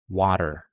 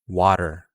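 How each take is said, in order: First: The T is a quick flap like D. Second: The T is a quick flap like D.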